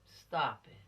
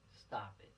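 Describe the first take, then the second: First: "Stop" hit louder; firm stop. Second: "Stop it" dropped soft and low. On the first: Telling teens to quit, firm. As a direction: bark out "Stop it". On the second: Telling teens to quit, softly. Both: Shown as a demonstration.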